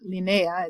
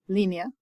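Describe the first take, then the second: First: The stress falls on the second syllable. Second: The stress falls on the first syllable. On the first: The speaker calls it wrong. "so it's not linea" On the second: The speaker calls it right. "our accent's on that one"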